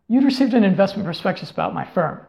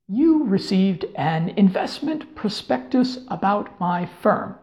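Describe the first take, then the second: First: It is blurted out quickly in one rush. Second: It is spoken slowly with careful, clear articulation. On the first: The speaker calls it right. "you kind of want to blurt out" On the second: The speaker calls it wrong. "clearly articulate"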